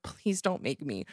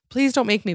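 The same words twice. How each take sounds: First: Soft, slow pleading; quiet plea. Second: Higher, louder desperate begging; loud plea. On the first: Begging the one-armed customer, quietly and slowly. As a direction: beg under your breath. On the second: Begging the customer not to make her yell, louder and higher. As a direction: plead out loud, pitch up. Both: Retold or imitated.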